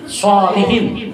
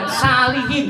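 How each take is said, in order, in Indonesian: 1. Diawali dengan bunyi s yang tebal dan emfatis. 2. Diawali dengan bunyi s yang biasa dan ringan. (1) "Harusnya solih" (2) "Jangan salihin. Kalau pakai sin uh, jadi mencret"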